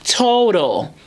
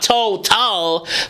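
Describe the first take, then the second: First: The second T is lessened, almost neutralized. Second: The second T is fully and crisply pronounced. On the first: The speaker calls it right. "So the second T is lessened" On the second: The speaker calls it wrong. "it's not total"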